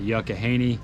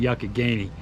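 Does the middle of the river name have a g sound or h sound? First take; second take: h sound; g sound. First: The middle of the name has an h sound. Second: The middle of the name has a g sound. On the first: The speaker calls it wrong. "I didn't pronounce it right" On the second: The speaker calls it right. "It's the Yuccogainy"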